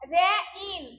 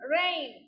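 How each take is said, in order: First: The vowels are split into two separate syllables. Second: The vowels glide together into one syllable. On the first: The speaker calls it wrong. "রে ইন কি সঠিক উচ্চারণ? No" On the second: The speaker calls it right. "সঠিক কোনটা? ... রেইন"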